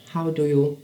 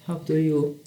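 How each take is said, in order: Both takes have the same delivery.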